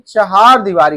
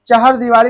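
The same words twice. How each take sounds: First: चहार दीवारी with a long aa in चहार; correct pronunciation. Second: चहर दीवारी with a short a in the second syllable; wrong pronunciation. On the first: Teacher corrects the form for students, चहार दीवारी with long haa. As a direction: say चहार दीवारी, stretching the second syllable haa. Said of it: "होता है". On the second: Teacher shows students the faulty form, चहर दीवारी with short second vowel. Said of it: "नहीं". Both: Shown as a demonstration.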